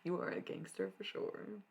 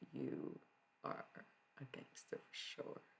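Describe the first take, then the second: First: It imitates the hot dog seller's voice. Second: It is said in the speaker's own voice.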